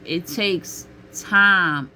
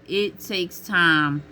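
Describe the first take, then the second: First: Drawn out and slow, stressing time; slow emphasis. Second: Slow again, pressing It; slow repeat. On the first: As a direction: lean on time, slowly. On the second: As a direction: draw it out slowly from It. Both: Shown as a demonstration. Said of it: "repeated slowly".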